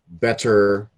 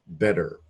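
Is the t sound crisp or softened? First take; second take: crisp; softened. First: The t sound is crisp and fully pronounced. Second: The t sound is softened, almost like d. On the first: The speaker calls it wrong. "We don't say that" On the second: The speaker calls it right. "we say"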